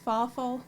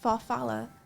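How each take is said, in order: First: The word ends in a short 'ful' sound. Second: The word ends in a longer 'falla' sound. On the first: The speaker calls it wrong. "How do you even pronounce that?" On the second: The speaker calls it right. "That's how you pronounce it"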